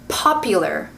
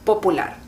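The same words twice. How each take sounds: First: The p has a strong puff of air. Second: The p has almost no puff of air.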